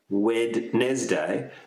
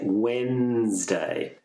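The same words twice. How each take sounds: First: The D in the middle is pronounced. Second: The D in the middle is silent. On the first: The speaker calls it wrong. "you have that D, Wednesday, but we don't pronounce it like that" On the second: The speaker calls it right. "We say Wednesday"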